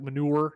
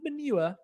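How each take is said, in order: First: It is said in an American accent. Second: It is said in a British accent. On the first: "You say it in an American accent, like manure" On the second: "if it's in a British accent, the streets are lined with manure"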